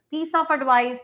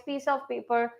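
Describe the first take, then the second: First: Said in the usual way. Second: "of" leaned on, then "paper" dropping quieter; slightly softer model phrase. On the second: Shown as a demonstration. Teacher contrasting two phrases with "of" for the students. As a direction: say "piece of paper" with a small lift on "of".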